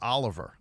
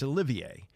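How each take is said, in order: First: The name is said the plain English way. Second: The name is said the French way. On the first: The speaker calls it wrong. "I pronounced it Oliver. I guess I should know better" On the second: The speaker calls it right. "He's from France. It's Olivier"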